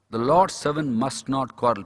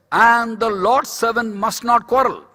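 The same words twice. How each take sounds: First: Slow, lower restatement of the verse; measured repetition. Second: Loud, high, slow scripture quote; emphatic proclamation. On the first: Preacher restating the verse as a rule, measured. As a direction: repeat it slowly and firmly, without raising the voice. Same verse repeated more soberly. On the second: Preacher quoting Timothy to the congregation, emphatic proclamation. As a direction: proclaim the verse slowly and forcefully. Preaching a verse, then repeating it. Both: Real, not acted.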